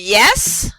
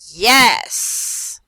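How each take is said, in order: First: The word is said simply, without added excitement. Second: The word is said with loud, excited enthusiasm. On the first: "I'll say simply yes" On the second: "I said it with an exclamation mark"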